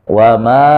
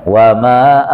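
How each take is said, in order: The two takes are said the same way.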